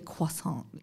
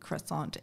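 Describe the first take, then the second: First: Croissant is said with a French-style pronunciation. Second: Croissant is said with an English-style pronunciation. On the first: This is the proper, authentic way of saying it. "I think it's actually croissant" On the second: This is the habitual local way of saying it. "so I just say croissant"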